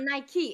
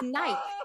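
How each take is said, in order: First: The final E is pronounced. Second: The final E is silent. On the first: The speaker calls it wrong. "not Nike" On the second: The speaker calls it right. "it hasn't got a little thing at the top of the E"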